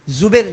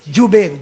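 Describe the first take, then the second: First: The name begins with a z sound. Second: The name begins with a j sound. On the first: The speaker calls it wrong. "जुबेर नहीं, जा से नहीं" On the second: The speaker calls it right. "जीम से"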